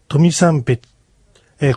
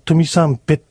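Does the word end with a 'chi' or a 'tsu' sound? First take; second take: chi; tsu. First: The word ends with a 'chi' sound. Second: The word ends with a 'tsu' sound. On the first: This is how it is sounded in the recited tale. "これはトミサンベチって発音されていますが" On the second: This is the usual way it is said. "普通は"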